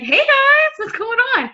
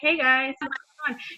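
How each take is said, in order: First: It is said peppily, with high energy. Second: It is said flatly, with low energy.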